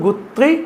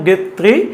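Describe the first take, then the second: First: The first vowel sounds like 'oo'. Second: The first vowel sounds like 'a'. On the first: "ചിലടത്ത് ഗുത്രി എന്നാണ്" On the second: "ബൗദ്ധിക വികാസ സിദ്ധാന്തം ഗത്രി"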